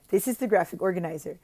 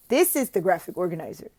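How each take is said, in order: Both takes have the same delivery.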